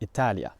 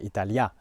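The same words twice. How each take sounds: First: The stress is on the second-to-last syllable. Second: The stress is not on the second-to-last syllable. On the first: The speaker calls it right. "the word stress ends on the penultimate syllable, like in Italian" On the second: The speaker calls it wrong. "they don't say Italia"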